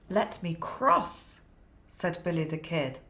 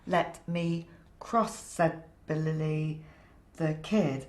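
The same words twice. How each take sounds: First: It is read with lively storyteller enthusiasm. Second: It is read plainly, without much expression.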